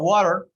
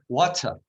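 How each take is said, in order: First: It is said in an American accent. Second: It is said in a British accent.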